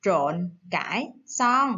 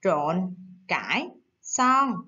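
First: "trộn cải xoăn" said slowly, syllable by syllable; slow model word. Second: "Trộn cải xoăn" slowly, syllable by syllable, low; slow model word. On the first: Teacher introducing "trộn cải xoăn" slowly to young pupils. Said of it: "Cô có từ". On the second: Teacher modelling "Trộn cải xoăn" for pupils to echo. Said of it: "Các bạn đọc lại theo cô nha". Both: Shown as a demonstration.

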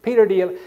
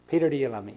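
First: Jesus asks again, higher and louder; rising urgency on the third asking; pressing a third time. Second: A calm, lightly voiced question; gentle first asking. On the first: Retold or imitated. Preacher retelling Jesus pressing Peter the third time, higher and louder. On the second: Preacher retelling Jesus asking Peter the first time, plain and calm. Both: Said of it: "he said it three times".

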